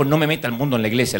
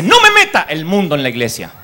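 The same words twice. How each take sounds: First: Rattled off fast, lightly voiced pastor; tossed-off replay of the pastor's line; quick retold rebuke. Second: Firm, louder scolding from the pastor; a pastor shutting the singer down; stern pastor's rebuke. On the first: Pastor's rebuke retold quickly, lightly voiced. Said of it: "le dijo el pastor". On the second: Retold or imitated. Pastor rebukes the singer, firm and louder. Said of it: "Y el pastor dice".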